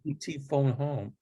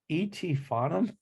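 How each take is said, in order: First: The last two words are said as separate words. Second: The last two words blur into one word. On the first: The speaker calls it right. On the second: The speaker calls it wrong.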